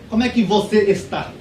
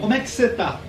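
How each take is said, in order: First: Você está is pronounced in full. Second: Você está is shortened to cê tá. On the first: "é difícil você ver um brasileiro falando assim" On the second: "Geralmente você vai ver um brasileiro falando assim"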